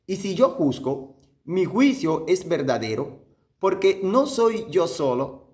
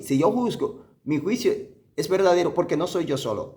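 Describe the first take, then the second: First: Measured scripture reading with pauses between phrases; unhurried, so each phrase sinks in; slow, deliberate reading. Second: Said in the usual way. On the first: Shown as a demonstration. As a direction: read the verse slowly, phrase by phrase. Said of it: "bien despacio". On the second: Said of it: "oye lo que está diciendo aquí".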